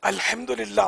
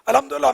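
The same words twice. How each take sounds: First: Every syllable is said clearly and carefully. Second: The word is rushed and slurred together. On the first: The speaker calls it right. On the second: The speaker calls it wrong.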